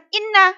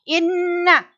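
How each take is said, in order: First: The n is short with no nasal hum. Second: The n is held long with a nasal hum. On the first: The speaker calls it wrong. "bukan inna, salah" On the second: The speaker calls it right. "Ditekan sampai dua harokat"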